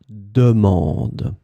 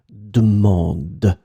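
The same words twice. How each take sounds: First: The first vowel is fully pronounced. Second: The first vowel is dropped. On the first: "you will pronounce the first E" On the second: "you will remove the first one"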